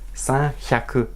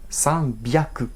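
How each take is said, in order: First: The second word begins with an h sound. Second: The second word begins with a b sound. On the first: The speaker calls it wrong. "on dirait san hyaku" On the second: The speaker calls it right. "transformer le H en B"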